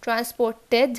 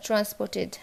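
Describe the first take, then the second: First: ট্রান্সপোর্টেড rising to a full "TED"; heavy E closing ট্রান্সপোর্টেড; wrong ED ending. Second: ট্রান্সপোর্টেড with a light "tid"; short I closing ট্রান্সপোর্টেড; correct ID ending. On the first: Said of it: "এড". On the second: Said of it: "ইড". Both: Shown as a demonstration.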